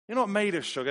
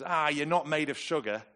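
First: High, loud, jokey scolding; emphatic family motto. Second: Brisk, higher-pitched brush-off; family motto. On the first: Parent urging family out into the rain, loud mock scolding. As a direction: repeat the saying louder and much higher. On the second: Parent getting the family out in the rain, chiding. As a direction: chide them lightly with the family saying. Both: Retold or imitated. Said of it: "The phrase is".

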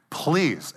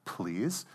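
First: Higher than the prompt, falling away at the end; younger sister pleading. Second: Soft, low prompting with a questioning rise; older sister prompting. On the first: Little sister obeys to get the red crayon, lightly voiced plea. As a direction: imitate a little girl dutifully adding the word. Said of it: "And she says". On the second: Older sister prompts little sister for the magic word, soft and questioning. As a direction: imitate a child quietly correcting, voice lifting at the end. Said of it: "then the older girl looks at her and says". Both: Retold or imitated.

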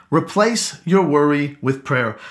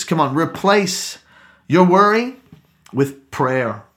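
First: Said in the usual way. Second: Slow punched phrasing on "your worry"; stressed, spaced phrase. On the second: Shown as a demonstration. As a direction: preach it word by word, pausing between.

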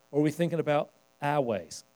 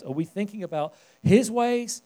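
First: "our" set apart, the line falling to its end; stress on "our". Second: "his" lifted above the rest, pitch held high; stress on "his". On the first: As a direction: lean on "our" as the lesser alternative. Contrasts our ways with God's. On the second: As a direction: lean on "his" as a question to the room. Contrasts God's ways with ours. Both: Real, not acted.

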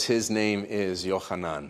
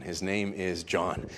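First: Yochanan said the Hebrew way, slow and soft; Hebrew name. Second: Said in the usual way. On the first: Acted. Zacharias writing the name, soft, slow Hebrew Yochanan. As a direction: say Yochanan with a throaty ch, slowly. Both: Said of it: "He says".

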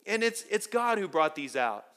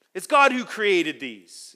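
First: Said in the usual way. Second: God hit louder and slower; slow the line, lean hard on God; stress on God. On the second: Shown as a demonstration. Preacher drives home who created the stars, God stressed.

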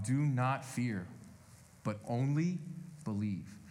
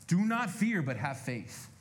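First: "Do not fear" drawn out slowly; quiet, slow words of comfort; slow, soft reading. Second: Preacher driving the point home; emphatic paraphrase. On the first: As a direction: ease "only believe" down gently. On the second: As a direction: press hard on "not" in "Do not fear". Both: Shown as a demonstration.

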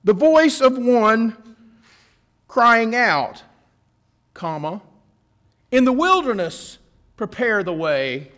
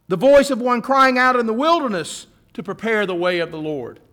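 First: Slow, with a clear pause after "crying out" before "in the wilderness"; Isaiah punctuation. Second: One unbroken phrase, "The voice of one crying out in the wilderness" running straight on; Luke punctuation. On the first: Preacher showing Isaiah's comma to the congregation, pausing after crying out. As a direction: break the line at the comma, stopping after "crying out". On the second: Preacher reading Luke's version to the congregation, one unbroken phrase. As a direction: read it as one flowing line with no break before "in the wilderness".

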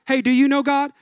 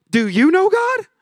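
First: Said in the usual way. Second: Puzzled echo. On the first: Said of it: "Have you ever met someone where you're like". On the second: Retold or imitated. Stranger echoing the question back in mock confusion. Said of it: "they looked at you and they go".

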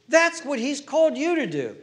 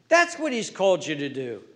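First: Higher, louder with a laugh; preached repeat. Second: Said in the usual way. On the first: Real, not acted. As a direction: hammer it home with joy. Repeats line, second preached.

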